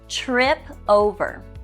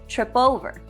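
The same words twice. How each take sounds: First: The two words are said separately. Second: The final p runs into the next word.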